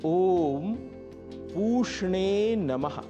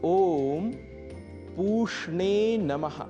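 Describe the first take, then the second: Both takes have the same delivery.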